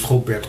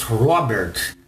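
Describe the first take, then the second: First: Said in the usual way. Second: Robert said slowly with an English R; American pronunciation. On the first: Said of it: "o seu nome em português". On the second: Shown as a demonstration. Teacher contrasts Portuguese and English names, American pronunciation of Robert. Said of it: "os americanos".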